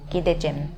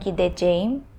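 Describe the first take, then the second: First: The word is cut down to fewer syllables. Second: Every syllable of the word is said fully. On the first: The speaker calls it right. "you cut it down to" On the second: The speaker calls it wrong. "from gideceğim"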